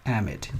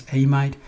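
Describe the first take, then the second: First: "amide" said AM-id; preferred pronunciation. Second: "amide" said AY-mide; alternative pronunciation. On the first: Teacher giving the preferred pronunciation, "amide" as AM-id. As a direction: say "amide" with short vowels, AM-id, falling at the end. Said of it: "usually I prefer". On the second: Teacher showing how some people pronounce it, "amide" as AY-mide. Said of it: "some people pre-, announce this as amide". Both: Shown as a demonstration.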